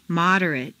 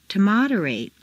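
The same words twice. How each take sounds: First: "Moderate" ending in weak "-rut"; reduced ending. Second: "moderate" ending in long "-RATE"; full A ending. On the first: Teacher models adjective "Moderate" with reduced final vowel. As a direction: shrink the last vowel of "Moderate". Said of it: "completely reduced". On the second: Teacher models verb "moderate" with full final A. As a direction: open out the last A of "moderate". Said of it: "it's a full A sound". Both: Shown as a demonstration.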